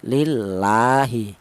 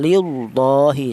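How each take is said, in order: First: The L is light and thin. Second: The L is heavy and thick. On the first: The speaker calls it right. "tarkik tipis seperti ini" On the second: The speaker calls it wrong. "Kalau tafkhim tebal ... salah ya"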